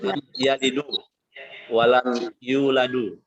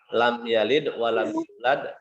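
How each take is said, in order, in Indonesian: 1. Setiap kata kerja diakhiri dengan vokal 'u' tambahan. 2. Setiap kata kerja diakhiri dengan konsonan, tanpa vokal. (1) "Tidak boleh dibaca"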